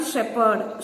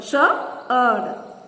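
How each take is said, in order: First: Said in the usual way. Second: "shepherd" split as shep, herd; syllable by syllable. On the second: Shown as a demonstration. Teacher counting syllables for children, "shepherd" broken in two. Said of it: "two syllables".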